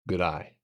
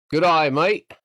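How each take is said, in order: First: Said in the usual way. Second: Loud, high, hammed-up Australian greeting; mock Australian accent. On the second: Streamer teasing any Australians in chat, loud mock Australian accent. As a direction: belt out a cartoonish Australian hello. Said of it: "I'm sorry, if you're Australian".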